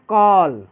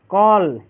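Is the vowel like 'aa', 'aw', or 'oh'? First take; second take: aw; aw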